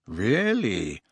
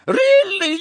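First: Understated, sceptical "Really?"; a drawn, unimpressed comeback; cool challenge. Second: Very high, loud, flustered squeal; shrieky, scandalised lady's exclamation. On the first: Boy answering a threat, coolly defiant. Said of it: "said Harry". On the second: Shop owner shocked by the accusation, squealing. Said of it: "Madame Malkin squealed". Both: A narrator's reading.

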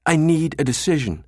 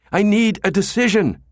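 First: Urgent request. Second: "I need a decision" loud and high, hit hard on "need"; demanding. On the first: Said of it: "Jabba turned back to the director". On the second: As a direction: press the director for an answer. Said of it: "Jabba demanded". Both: A narrator's reading.

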